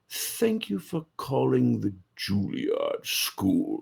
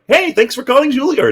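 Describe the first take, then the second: First: The tone is stern and intimidating. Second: The tone is casual and friendly.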